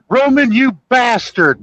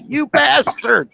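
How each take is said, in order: First: High, hammed-up yell at Roman; mock yell. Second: High, slow hammed-up yell; mock yell. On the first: Retelling John Candy water skiing, high mock yell. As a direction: yell it up high at the guy driving the boat. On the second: Retelling John Candy water skiing, slow high mock yell. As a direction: drag it out high like he's hanging on for dear life. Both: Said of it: "He goes".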